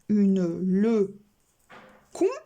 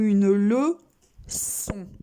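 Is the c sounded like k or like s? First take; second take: k; s. First: The c is sounded like a k. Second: The c is sounded like an s. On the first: The speaker calls it wrong. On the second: The speaker calls it right.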